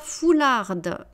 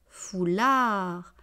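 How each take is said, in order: First: The final D sound is pronounced. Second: The final D sound is silent. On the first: The speaker calls it wrong. "on ne dit pas foularde" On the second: The speaker calls it right. "On dit foulard"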